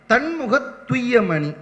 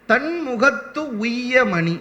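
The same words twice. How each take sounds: First: "தன்முகத்துய்ய மணி" run together as one word, slow; joined reading. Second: "தன்முகத்து உய்ய மணி" said slowly, with a clear break before உய்ய; split reading. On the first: Teacher to audience, showing the joined reading slowly. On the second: Teacher to audience, showing the split reading slowly. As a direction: separate தன்முகத்து from உய்ய, leaning on உய்ய. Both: Shown as a demonstration. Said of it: "இத ரெண்டு விதமாக பொருள் சொல்கிறார்கள்".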